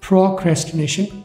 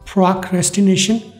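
First: It is said in a British accent. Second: It is said in an American accent.

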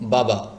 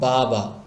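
First: The word is said short and quick. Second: The vowels are stretched out long. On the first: The speaker calls it right. "তাড়াতাড়ি বলবেন" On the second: The speaker calls it wrong. "টান দিয়ে ফেলেন বা লম্বা করে ফেলেন"

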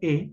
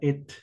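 First: The final t sound is silent. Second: The final t sound is pronounced. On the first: The speaker calls it right. "se pronuncia e nada más" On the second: The speaker calls it wrong. "no se pronuncia et"

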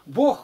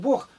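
First: The final G sound is clearly audible. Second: The final consonant is indistinct and unclear. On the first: The speaker calls it right. "говори Г, чтобы слышалось-то" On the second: The speaker calls it wrong. "Вот мы говорим Бог, непонятно"

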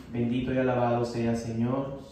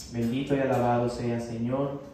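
The two takes are said the same way.

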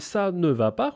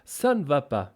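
First: The vowel in ne is fully pronounced. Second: The vowel in ne is dropped. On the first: "Може читатися і ça ne va pas" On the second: "хоча скоріше втікає"

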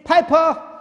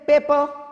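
First: The first vowel sounds like 'eye'. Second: The first vowel sounds like 'ay'. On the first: "in the UK and US, they say Piper" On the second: "In India, we say paper"

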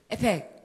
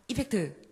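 First: The word is said fast with the ending dropped. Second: The word is said fully with all syllables. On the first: "이펙트를 빠르게 발음하면 FX가 되는" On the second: "이펙트 한번 해보세요"

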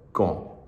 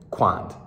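First: The final D sound is silent. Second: A final D sound is pronounced. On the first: The speaker calls it right. "You don't pronounce the A and the D. You just go" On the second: The speaker calls it wrong. "I just saw how it was spelled and I was like"

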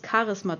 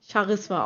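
First: The word starts with a hard k sound. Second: The word starts with a soft, hissing ch sound. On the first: The speaker calls it wrong. "ich weiß gar nicht, wie man darauf kommt, es Charisma zu nennen" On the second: The speaker calls it right. "Eigentlich müsste man es ja Charisma aussprechen, ne? Weil es ja ein CH ist"

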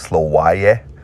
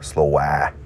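First: The word ends with a clear y sound. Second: The word ends without any y sound. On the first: "Instead of slowaye" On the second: "They drop that Y"

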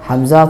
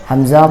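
Both takes have the same delivery.

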